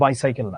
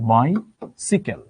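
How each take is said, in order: First: The second syllable sounds like 'sai'. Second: The second syllable sounds like 'si'. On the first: The speaker calls it wrong. "এটার উচ্চারণ তো বাইসাইকেল না" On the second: The speaker calls it right. "এটার উচ্চারণ হচ্ছে বাইসিকেল"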